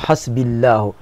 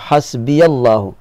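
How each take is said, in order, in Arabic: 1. الياء ساكنة وتُحذف قبل الله. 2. الياء تحمل فتحة قصيرة. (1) "لكن لو تركت الياء ساكنة ستقول حسبي الله" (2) "لو فتحت فتقول حسبي الله"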